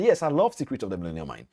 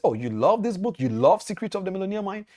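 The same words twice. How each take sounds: First: Said in the usual way. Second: High-pitched, eager questioning; retold delighted question, pitched up; pleasantly surprised question. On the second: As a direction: imitate an impressed stranger asking eagerly. Millionaire delightedly spots the book.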